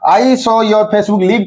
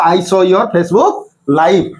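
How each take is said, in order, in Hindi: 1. 'Live' में छोटा स्वर है, और यह 'give' से तुक मिलाता है। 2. 'Live' में लंबा स्वर है, और यह 'five' से तुक मिलाता है। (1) "कहि परिबो हबो नहीं" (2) "एटी कहि परिबी"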